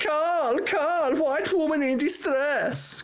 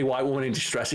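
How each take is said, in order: First: Very high, drawn-out mock Romanian cry; high-pitched, put-on Romanian accent; thick Romanian accent. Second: Said in the usual way. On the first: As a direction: imitate a Romanian coworker calling out in distress. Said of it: "like, Romanian accent". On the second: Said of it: "I made her say".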